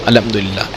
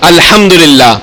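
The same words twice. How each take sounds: First: It is mumbled quietly under the breath. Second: It is said in a somewhat raised voice. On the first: Nobody nearby can hear the praise. The speaker calls it wrong. "वो मुंह में ना बोले अल्हम्दुलिल्लाह, ऐसे नहीं" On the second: The person sitting nearby can hear the praise. The speaker calls it right. "थोड़ी सी ऊंची आवाज से बोले"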